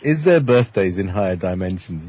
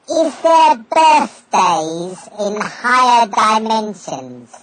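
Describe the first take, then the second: First: It is said in a natural voice. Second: It is said in a put-on voice.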